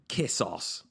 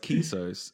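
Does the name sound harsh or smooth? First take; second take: harsh; smooth. First: The name is said harshly, like kiss ass. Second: The name is said smoothly and elegantly. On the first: It sounds crude. The speaker calls it wrong. "when pronounced by an English person, has a really harsh sound to it. It's like Kissos" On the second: It sounds classy and upscale. The speaker calls it right. "Kissos sounds like the top of the sort of... top shelf at a bar"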